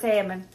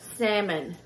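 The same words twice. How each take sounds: First: The word is said with an audible L. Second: The word is said with a silent L. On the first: The speaker calls it wrong. "if I just say it without concentrating, it comes out of salmon" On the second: The speaker calls it right. "I have to literally sit here and like concentrate on the word salmon"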